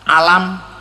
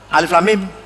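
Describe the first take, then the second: First: The letters are run together as one word. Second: Each letter name is said separately. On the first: It is read without the rules of recitation. The speaker calls it wrong. "Nek ora ono ilmu tajwid, alif lam mim saya baca alam" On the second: It is read following the rules of recitation. The speaker calls it right. "Atau diwaca alif lam mim"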